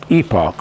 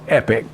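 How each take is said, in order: First: The word is said a non-American way. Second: The word is said the American way. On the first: "I pronounce it Epoch" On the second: "Americans pronounce it Epic"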